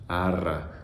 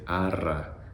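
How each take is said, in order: The two takes are said the same way.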